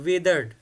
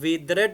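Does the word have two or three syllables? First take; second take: two; three. First: The ending 'e' is silent, giving two syllables. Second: The ending is a full extra 'red' syllable. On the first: The speaker calls it right. "ई इधर वाला फिर silent रहेगा, डी बोलेंगे हम इसको विदर्ड" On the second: The speaker calls it wrong. "तो हमने विदरेड नहीं बोलना"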